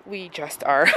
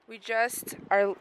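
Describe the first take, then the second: First: Said in the usual way. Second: Quiet and slow, nearly under the breath; soft murmur. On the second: Real, not acted. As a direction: drop to a hush.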